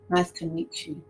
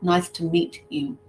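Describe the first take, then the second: First: The t and y merge into a ch sound. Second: The t and y are said separately. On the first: The speaker calls it right. "Some people might even say it like that. Chew" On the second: The speaker calls it wrong. "But it's not nice to meet you. It's never that one"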